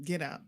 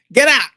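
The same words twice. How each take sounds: First: Quiet. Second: High, loud "get out"; mock shout. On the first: Pretend. Co-host joking about evicting family, quietly. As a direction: say it under your volume, understated. First quiet take of the phrase. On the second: Co-host joking about evicting family, mock shouting. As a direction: belt out a playful order to leave. Louder repeat of the phrase.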